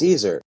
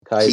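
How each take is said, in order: First: The word begins with an S sound. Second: The word begins with a K sound. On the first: The speaker calls it wrong. "so is Caesar" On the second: The speaker calls it right. "Guess how you pronounce Caesar correctly?"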